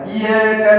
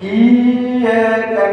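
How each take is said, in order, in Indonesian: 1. Y diucapkan cepat tanpa ditekan. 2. Y ganda ditekan dan ditahan. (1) "Jangan baca iyyaka na', salah" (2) "tekan dulu baru lepas"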